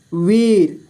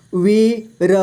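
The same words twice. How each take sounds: First: Said in the usual way. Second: वीर split into वी, र; syllable by syllable. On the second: Shown as a demonstration. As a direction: sound out वी and र separately in वीर. (वीर को तोड़कर: वी, र) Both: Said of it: "इस तरह से आपको".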